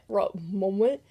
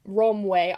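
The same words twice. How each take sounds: First: "Romwe" tried haltingly, rising like a question; unsure pronunciation. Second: "Romwe" said firmly, a touch louder, falling; settled pronunciation. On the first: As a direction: stumble over "Romwe" as if unsure. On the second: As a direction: land "Romwe" with confidence. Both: Shown as a demonstration.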